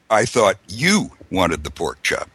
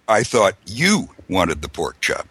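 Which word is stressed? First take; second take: you; you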